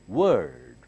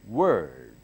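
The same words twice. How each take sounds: Both takes have the same delivery.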